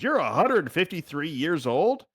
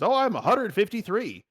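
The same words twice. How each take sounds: First: Higher, slow questioning rise; mild mock disbelief. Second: Higher, lightly voiced kobold; kobold's casual boast. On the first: Party questioning the kobold's age, in mild mock disbelief. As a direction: echo it back as an incredulous question. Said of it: "Everyone stops and says". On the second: Kobold telling the party its age, lightly voiced higher. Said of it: "my kobold and he says".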